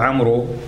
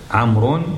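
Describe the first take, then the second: First: The name ends with a long oo vowel. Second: The name ends with the sound un. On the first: The speaker calls it wrong. "ما تقول عمرو، ما في شيء عمرو" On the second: The speaker calls it right. "لا تلفظ"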